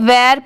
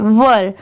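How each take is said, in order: First: The vowel sounds like the vowel in 'air'. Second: The vowel is a short neutral 'uh' sound. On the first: The speaker calls it wrong. "बहुत सारे लोग इसे वेर पढ़ते हैं, but नहीं, ये wrong pronunciation है" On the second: The speaker calls it right. "इसे वर पढ़ा जाता है"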